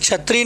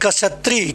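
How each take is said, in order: First: The word begins with a 'ch' sound. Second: The word begins with a 'ksh' sound. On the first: The speaker calls it wrong. "तो छत्री नहीं" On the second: The speaker calls it right. "कसत्री होता है"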